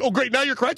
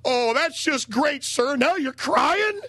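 First: Mocking jab. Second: High, slow mocking voice, dragging out crying; mocking sneer. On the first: Retold jab at Maria. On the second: Mocking guy in retold story.

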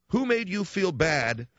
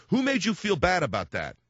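First: Slow and deliberate, slightly higher; drawn-out probing question; slow, pointed question. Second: Said in the usual way. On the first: Retold or imitated. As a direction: press the question slowly. Same question repeated slowly, deliberately.

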